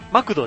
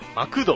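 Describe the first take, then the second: First: The middle syllable ku is not emphasized. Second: The middle syllable ku is emphasized. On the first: This is not the Osaka way of saying it. The speaker calls it wrong. "マクドじゃないんですよ" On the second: This is the Osaka way of saying it. The speaker calls it right. "区がね、強調されるんですよ"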